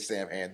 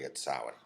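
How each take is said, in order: First: It uses the common anglicized pronunciation. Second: It uses the official Celtic pronunciation. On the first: This is how most people say it. "Everybody says Sam Hain" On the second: The speaker is correcting someone pedantically. "well, actually, it's Samhain"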